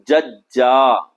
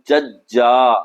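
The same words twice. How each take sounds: Both takes have the same delivery.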